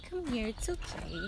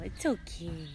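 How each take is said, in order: First: Sing-song high reassurance; high coo. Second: Said in the usual way. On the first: Real, not acted. To shy pets, a high soothing coo.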